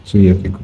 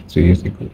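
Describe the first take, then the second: No difference in how they are said.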